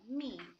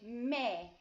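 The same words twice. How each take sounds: First: The vowel is a long 'ee' sound. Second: The vowel is a short 'eh' sound. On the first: The speaker calls it wrong. "instead of me" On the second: The speaker calls it right. "we say me ... because e in Spanish makes the e sound"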